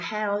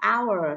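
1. Từ này bắt đầu với âm h. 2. Từ này bắt đầu không có âm h. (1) "Các bạn không được đọc là how nhé, how là sai" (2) "H câm, từ H không được phát âm nhé"

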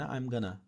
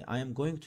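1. Kelimeler kısaltılır ve birleşerek 'gonna' olur. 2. Her kelime tam olarak ve ayrı ayrı söylenir.

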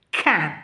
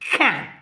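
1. الصوت قوي وينطق بوضوح. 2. الصوت قوي وينطق بوضوح.

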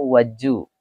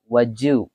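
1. Bunyi d dan y menyatu menjadi bunyi j. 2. Bunyi d dan y menyatu menjadi bunyi j.

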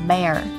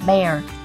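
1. Âm r cuối rõ ràng, lưỡi uốn lên. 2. Âm r cuối rõ ràng, lưỡi uốn lên.

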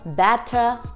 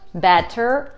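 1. Финальный звук R не произносится. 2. Финальный звук R явно произносится. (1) "в британском английском на конце слова этот звук не произносится" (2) "в американском английском в этих же словах звук R произносится"

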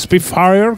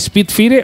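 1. El nombre se dice con sonidos ingleses. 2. El nombre se dice con sonidos españoles.

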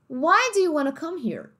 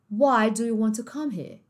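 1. É falado com sotaque americano. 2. É falado com sotaque britânico.

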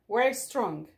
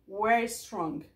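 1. 'We are' é encurtado em uma sílaba. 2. 'We are' é encurtado em uma sílaba.

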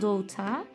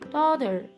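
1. İngiliz aksanıyla söyleniyor. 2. Amerikan aksanıyla söyleniyor. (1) "İngiliz İngilizcesi olan daughter" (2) "Amerikan İngilizcesinde daughter deniyor"

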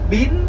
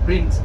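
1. Từ này được phát âm với giọng Thái. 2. Từ này được phát âm theo giọng Anh chuẩn. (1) "tiếng Anh của người Thái theo cái từ in ấn đó họ gọi là" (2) "Tiếng Anh gọi là print"

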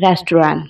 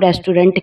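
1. अंतिम 't' की ध्वनि साइलेंट रहती है। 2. अंतिम 't' की ध्वनि साफ़ बोली जाती है। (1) "इसकी करेक्ट प्रोनंसिएशन है रेस्टोरेंट। टी जो लास्ट में है वो साइलेंट है" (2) "इसे हम रेस्टोरेंट कहते हैं"

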